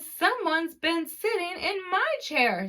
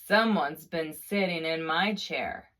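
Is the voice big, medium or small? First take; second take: medium; big. First: It is said in a medium-sized voice. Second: It is said in a big, deep voice. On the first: "said Mama Bear in her medium-sized voice" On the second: "said the Papa Bear in his great huge voice"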